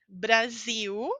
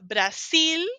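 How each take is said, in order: First: The word ends with a U-like vowel sound. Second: The word ends with a clear L sound. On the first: This is the Portuguese way of saying it. The speaker calls it right. "Termina em L, pronúncia de U. Brasil é português" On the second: This is the Spanish way of saying it. The speaker calls it wrong. "Se você fala Brasil, é espanhol"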